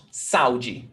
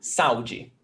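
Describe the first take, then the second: First: "saúde" run together as sau-de, a and u in one syllable; wrong saúde. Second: "saúde" with a and u apart, stress on ú: sa-Ú-de; correct saúde. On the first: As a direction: glide the a into the u. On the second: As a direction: split the vowels, lean on the u. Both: Shown as a demonstration. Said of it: "It's not saúde".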